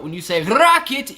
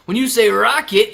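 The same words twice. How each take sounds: First: Rocket with the R rolled on the tongue. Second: Rocket with the R from the throat; throaty R. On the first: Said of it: "you use the tongue". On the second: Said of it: "you use the throat". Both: Shown as a demonstration.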